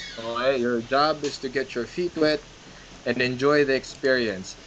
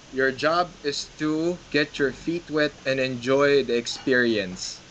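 First: Said in the usual way. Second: Slow, deliberate, every word weighed; slow emphatic advice. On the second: Shown as a demonstration. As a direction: lay it down slowly for first-timers. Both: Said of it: "That's it".

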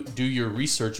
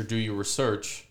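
First: REsearch, stressed on the first syllable. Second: ReSEARCH, stressed on the second syllable. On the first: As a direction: say "research" as REE-search. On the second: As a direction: say "research" as ruh-SEARCH. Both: Shown as a demonstration. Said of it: "different pronunciations of the exact same word".

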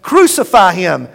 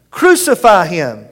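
First: Loud shouted demand; shouting crowd. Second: Loud shout, slowed and drawn out; slower shouting crowd. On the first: Priests and guards demanding death, loud shout. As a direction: hurl it like a mob. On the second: Priests and guards repeating the demand, slow loud shout. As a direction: stretch the chant out heavily. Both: Acted. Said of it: "began shouting".

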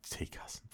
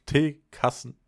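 First: Breathless whisper. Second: Said in the usual way. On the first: Real, not acted. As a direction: drop to a whisper. Repeats the word under breath.

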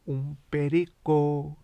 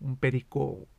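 First: Slow, louder parrot call; parrot squawk. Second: Said in the usual way. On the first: Shown as a demonstration. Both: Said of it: "I sound like a fucking bird".

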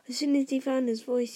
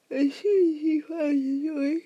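First: Said in the usual way. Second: Loud, cracking, slowed-down reading; strained loud voice. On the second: Real, not acted. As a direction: narration breaking up loudly. Botched narration line, then redone.

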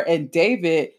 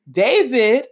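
First: Said in the usual way. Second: David stretched, higher and louder; lingering over David, relishing it; savoring the name. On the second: Real, not acted. To the audience about the tall English guy, DAVID lingered and lifted.

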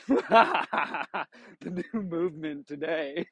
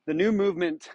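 First: Laughing through the words, slow; giggling while saying it. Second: Said in the usual way. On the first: Real, not acted.

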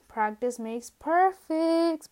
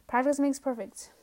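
First: "practice makes perfect" stretched out slowly and pitched higher; drawn-out emphasis. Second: Said in the usual way. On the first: Shown as a demonstration. Vlogger hammering home her motto to viewers, slow and emphatic.

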